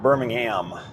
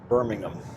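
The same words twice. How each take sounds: First: The final syllable is a full 'ham' sound. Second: The final syllable is reduced and weak.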